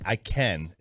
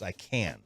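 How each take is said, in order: First: The vowel in 'can' sounds like 'ken'. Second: The vowel in 'can' sounds like 'can'. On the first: The speaker calls it wrong. "we're pronouncing it K E N" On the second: The speaker calls it right. "it's I can"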